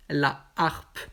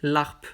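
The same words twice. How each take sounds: First: "la harpe" with no elision; "la harpe" slowly, as two separate words; aspirated-h harpe. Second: "larpe" run together as one word; wrongly elided harpe. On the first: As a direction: keep "la" whole before "harpe". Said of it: "Le H aspiré". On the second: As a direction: drop the a of "la" to give "larpe". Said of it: "Je ne peux pas dire larpe". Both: Shown as a demonstration.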